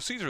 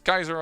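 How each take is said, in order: First: The name begins with a soft S sound. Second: The name begins with a hard K sound. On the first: "Caesar is the English way to pronounce it" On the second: "more German way"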